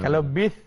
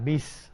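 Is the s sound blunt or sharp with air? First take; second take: blunt; sharp. First: The s sound is blunt and weak. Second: The s sound is sharp with audible air. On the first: The speaker calls it wrong. "tak betul" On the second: The speaker calls it right.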